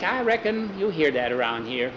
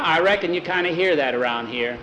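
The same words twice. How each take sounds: First: Put-on child parroting an adult. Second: Said in the usual way. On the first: A narrator's reading. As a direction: copy the grown-up word for word, stretched out. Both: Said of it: "You are repeating everything we say".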